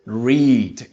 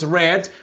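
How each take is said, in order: First: The vowel is long, as in reed. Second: The vowel is short, as in red. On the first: This is the base form of the verb. "en su forma base es" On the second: This is the past form of the verb. "en pasado es"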